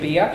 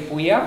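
First: The b goes straight into the vowel. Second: A w-like glide follows the b. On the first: The speaker calls it wrong. "You don't say Bia" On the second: The speaker calls it right. "you say Buia. So there's a glade"

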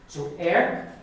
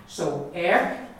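No difference in how they are said.

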